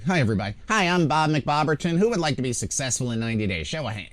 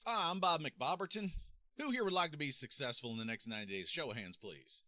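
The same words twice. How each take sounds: First: High, loud mock seminar presenter; put-on presenter voice, pitched up and pushed loud; stage speaker. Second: High-pitched mock seminar presenter; put-on presenter voice, high and distant; stage speaker. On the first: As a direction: imitate an over-eager motivational speaker, mic too close. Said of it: "right up against my throat". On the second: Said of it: "the thing that I see people do".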